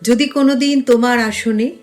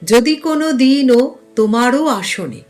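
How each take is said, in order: First: Word endings are cut off without a vowel. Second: Word endings carry an added final 'o' vowel. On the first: The speaker calls it wrong. "সেটা কিন্তু গানের সময় বলবো না" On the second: The speaker calls it right. "এখানে কোথাও হসন্ত নেই"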